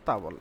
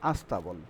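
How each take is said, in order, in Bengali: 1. শব্দটি সরাসরি st গুচ্ছ দিয়ে শুরু হয়। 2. শব্দটি একটি যোগ করা স্বরধ্বনি দিয়ে শুরু হয়। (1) "স্তাবল থেকে আস্তাবল উচ্চারণ হচ্ছে" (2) "পরিবর্তিত উচ্চারণ কি হয় দেখেন"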